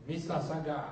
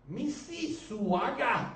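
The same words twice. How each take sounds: First: Mississauga clipped fast, as locals say it; local pronunciation. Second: Mississauga said slowly, every syllable spelled out; Mississauga, slow and letter by letter; spelled-out pronunciation. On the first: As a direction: Mississauga swallowed quick like a local. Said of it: "That's pronounced". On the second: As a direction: Mississauga drawn out as it is written. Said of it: "It's spelled". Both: Shown as a demonstration.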